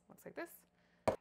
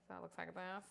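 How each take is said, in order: First: Repeated much higher and slow, stretched out. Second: Said in the usual way. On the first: Shown as a demonstration. Showing the onions to viewers again, high and slow. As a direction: lift it up high and drag it out.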